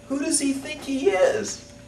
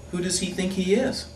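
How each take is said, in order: First: Very high, slow, stretched-out indignation; the over-the-top take; outraged. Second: High, affronted who-does-he-think-he-is; offended huff; indignant. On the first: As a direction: drag it out in disbelief. Repeat of the rant, bigger. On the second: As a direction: scoff it, outraged and high. Indignant rant about the architect. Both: Acted.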